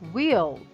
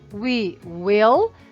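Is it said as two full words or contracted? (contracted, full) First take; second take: contracted; full. First: The words are joined into one short syllable. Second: Both words are said fully and separately. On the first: "para falar fica um pouco mais dinâmico, um pouco mais rápido" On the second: "ao invés de ficar we will"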